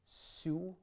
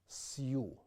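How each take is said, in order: First: The s itself is softened, with no glide. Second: A hard s is followed by a y glide. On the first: The speaker calls it right. "We get su" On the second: The speaker calls it wrong. "and not siu"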